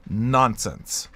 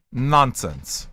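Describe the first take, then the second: No difference in how they are said.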